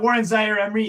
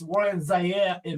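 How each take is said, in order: First: The name is said with English-style sounds. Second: The name is said with French-style sounds. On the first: The speaker calls it wrong. "it's not" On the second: The speaker calls it right.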